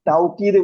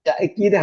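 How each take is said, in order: First: A w sound follows the first vowel. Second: A glottal stop follows the first vowel. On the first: "വാവിട്ടും പറയും" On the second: "ഹംസത്തും പറയും"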